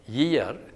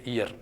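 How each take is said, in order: First: The word begins with a y glide sound. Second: The word begins directly with a pure vowel. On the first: "ya as in yes, yet, year" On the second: "you always leave out that semivowel sound"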